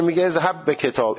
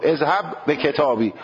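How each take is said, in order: First: اذهب به کتاب said with the final ب bare, no vowel; کتاب ending flat without the kasra; pronunciation demo. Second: کتابی said with a clear final ی vowel; pronunciation demo. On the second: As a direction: stretch the kasra at the end of کتابی. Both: Shown as a demonstration.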